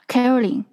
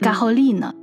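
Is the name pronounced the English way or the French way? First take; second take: English; French. First: The name is pronounced the English way. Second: The name is pronounced the French way. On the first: "英文是叫Caroline" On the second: "在法语的时候这个名字就会变得就很不好听，就会变成Caroline"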